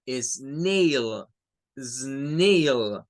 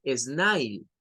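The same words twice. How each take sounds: First: "snail" with a long "ey", drawn out; correct pronunciation. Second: "snail" with "ai", like "snile"; wrong pronunciation. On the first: Teacher showing learners how it is said, correct pronunciation. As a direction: stretch "snail" slowly with the vowel of "day". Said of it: "se dice snail". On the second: Teacher showing learners how not to say it, mispronunciation. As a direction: stretch "snail" so it rhymes with "mile". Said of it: "No se dice snail". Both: Shown as a demonstration.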